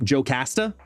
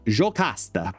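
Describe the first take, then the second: First: It is said with a plain American English accent. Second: It is said with a Brazilian Portuguese accent. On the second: "the Brazilian Portuguese in me wants to read it as Jocasta"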